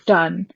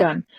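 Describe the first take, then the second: First: "Dun" with an initial D sound; corrected name. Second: "Gun" with an initial G sound; misheard name. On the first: Game master correcting a misheard name, "Dun" with a D. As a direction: say "Dun" with a clear D. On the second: Game master rejecting the misheard name, "Gun" with a G. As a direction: say "Gun" with a hard G. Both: Shown as a demonstration. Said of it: "not Gun".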